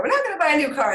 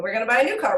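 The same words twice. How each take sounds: First: NOT pitched up high; stress on NOT. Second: Said in the usual way. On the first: Real, not acted. Mother correcting the car plan, stress on "not". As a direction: lift "not" sharply to correct it. Contradicts the line just said.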